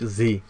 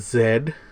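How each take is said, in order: First: The letter is said the American way. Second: The letter is said the Canadian way.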